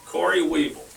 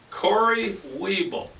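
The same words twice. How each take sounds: First: Said in the usual way. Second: Slow, higher, stretched winner's name; drawn-out announcer call. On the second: Real, not acted. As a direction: roll the name out like a game-show host.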